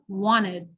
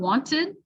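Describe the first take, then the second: First: The T after N is dropped. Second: The T after N is clearly pronounced. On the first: The speaker calls it wrong. "we'll say wanted" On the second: The speaker calls it right. "Instead of saying wanted"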